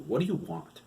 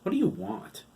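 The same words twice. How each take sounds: First: "What do you want?" asked again, short and impatient. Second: "What do you want?" thrown out sharp and high. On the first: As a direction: hurry him along. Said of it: "I have work to do". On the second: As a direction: cut him off with a sharp question. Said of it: "His tone was a little sharp". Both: Acted.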